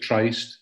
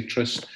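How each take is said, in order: First: "Tryst" rhyming with iced; long-i pronunciation. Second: "Tryst" rhyming with list; short-i pronunciation. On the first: Showing how Ayrshire people say it, "Tryst" with a long i. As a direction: give "Tryst" a long i, as in "price". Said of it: "Some people pronounce it Tryst". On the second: Showing what many people say, "Tryst" with a short i. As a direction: give "Tryst" a short i, as in "sit". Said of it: "people wanting to say Tryst". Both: Shown as a demonstration.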